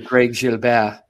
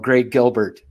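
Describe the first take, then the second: First: Gilbert is pronounced the French way. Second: Gilbert is pronounced the English way. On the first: This is not how the family says the name. The speaker calls it wrong. "you don't say Greg Gilbert" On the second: This is how the family says the name. The speaker calls it right. "a French name with an Ontario pronunciation"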